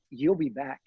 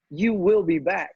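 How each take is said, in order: First: Said in the usual way. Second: Slow, firm, with a clear hit on "will"; "will" drawn out and a little louder; stress on will. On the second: Retold or imitated. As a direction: lean hard on "will" as a promise.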